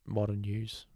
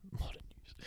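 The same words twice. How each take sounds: First: Said in the usual way. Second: "Modern news" whispered, breath only; whispered repeat of the slogan. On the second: Shown as a demonstration.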